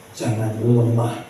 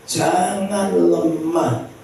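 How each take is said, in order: First: Said in the usual way. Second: "jangan lemah" high and slowly stretched; drawn-out exhortation. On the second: Real, not acted. Preacher urging the congregation, "jangan lemah" drawn out high.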